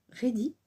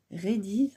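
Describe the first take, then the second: First: Said in the usual way. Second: "Ready" ending in a buzzing z; with added S. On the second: Shown as a demonstration. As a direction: say "Ready" with an S tacked on. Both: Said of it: "mettre des S partout".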